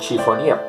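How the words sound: It is said with a Spanish accent. "pasa al español y la transliteramos del francés"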